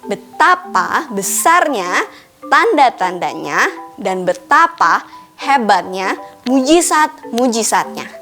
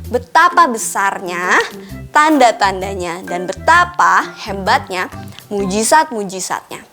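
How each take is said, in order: First: It is read slowly and deliberately. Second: It is read at a normal, quicker pace.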